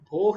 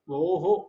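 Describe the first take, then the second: First: It ends in a bare h sound. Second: It ends with an echoed 'ho' sound. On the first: The speaker calls it wrong. "भोह नहीं होगा" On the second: The speaker calls it right. "विसर्ग का उच्चारण हो की तरह हो गया"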